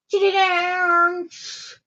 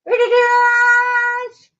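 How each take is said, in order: First: Very slow, stretched-out announcement; drawn out. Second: Very slow, high, loud sung announcement. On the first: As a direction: stretch every syllable. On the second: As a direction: sing it out big and long. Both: Real, not acted. Announcing the kitty dance.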